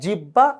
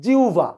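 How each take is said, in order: First: The middle is said with a doubled b sound. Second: The middle is said with a u then v sound. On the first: The speaker calls it wrong. "Not জিব্বা" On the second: The speaker calls it right. "আদতে এটার উচ্চারণ কিন্তু জিউভা"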